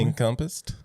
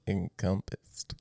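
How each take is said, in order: First: It is said at normal speed. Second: It is said slowly.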